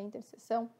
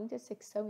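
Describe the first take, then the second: First: No 'k' sound comes before the 's'. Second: A 'k' sound comes before the 's'. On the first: The speaker calls it right. "percebi só esses dias que é interseção" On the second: The speaker calls it wrong. "às vezes eu falo intersecção"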